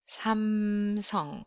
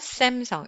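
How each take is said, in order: First: It is said with Korean-style soft sounds. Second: It is said with English-style sounds. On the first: The speaker calls it right. "it's 삼성" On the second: The speaker calls it wrong. "It's not Samsung"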